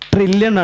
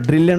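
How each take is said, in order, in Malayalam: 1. ഈ വാക്ക് T ശബ്ദത്തിലാണ് തുടങ്ങുന്നത്. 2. ഈ വാക്ക് D ശബ്ദത്തിലാണ് തുടങ്ങുന്നത്. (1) "ട്രില്യൺ ആണ്" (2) "ഡ്രില്യൺ അല്ല കേട്ടോ"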